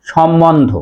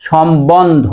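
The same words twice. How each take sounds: First: সম্বন্ধ said shom-mondho, with doubled m and no b; common mispronunciation. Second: সম্বন্ধ said shom-bondho, b clearly sounded; careful shom-bondho for সম্বন্ধ; correct pronunciation. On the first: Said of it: "মটাকে double করি". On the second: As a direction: keep the b after m in সম্বন্ধ. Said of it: "সঠিক উচ্চারণ হবে". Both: Shown as a demonstration.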